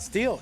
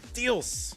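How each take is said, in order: First: The name ends with an l sound. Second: The name ends with an s sound. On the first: The speaker calls it wrong. "it's not" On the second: The speaker calls it right. "It's Steels. And don't you forget it"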